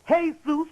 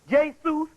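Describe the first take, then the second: First: The name begins with an H sound. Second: The name begins with a J sound. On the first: "which is the real name"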